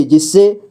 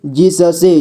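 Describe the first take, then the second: First: Said in the usual way. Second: जिससे split as जि-स-से; syllable by syllable. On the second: Shown as a demonstration. Teacher showing beginners how to read जिससे, syllable by syllable. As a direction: sound out each letter of जिससे. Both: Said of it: "जोड़ जोड़ करके ही पढ़ना होगा".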